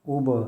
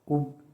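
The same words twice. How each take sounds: First: The final consonant is released with an echoing bounce. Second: The final consonant stops flat without an echo. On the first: "कलकला के साथ" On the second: "बग़ैर कलकला के"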